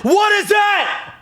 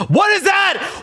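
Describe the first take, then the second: First: Slow, very high, loud shriek; shocked shout. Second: Very high, loud what is that; shocked cry. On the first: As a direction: yell it out as the shock lands. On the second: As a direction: recoil at the sight in high alarm. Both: Real, not acted. Porn appears under his tweet.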